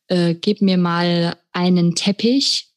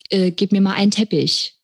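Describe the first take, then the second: First: The word 'einen' is pronounced in full. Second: The word 'einen' is swallowed and reduced. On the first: This is the formal written language. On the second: This is everyday spoken language.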